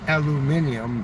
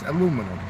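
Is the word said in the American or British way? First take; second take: British; American. First: It is said the British way, five syllables. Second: It is said the American way, four syllables. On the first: The speaker calls it wrong. "as you guys say" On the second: The speaker calls it right. "It's aluminum"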